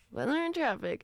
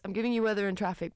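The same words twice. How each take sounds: First: High sing-song station sting; radio jingle voice. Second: Said in the usual way. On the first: Pretend. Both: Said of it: "So imagine I've just played the sting".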